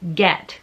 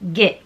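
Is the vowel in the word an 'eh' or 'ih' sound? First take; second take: eh; ih. First: The vowel is an open 'eh' sound. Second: The vowel is a short, closed 'ih' sound. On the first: The speaker calls it right. "which is a more open sound" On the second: The speaker calls it wrong. "a much more sort of punctuated, smaller sound"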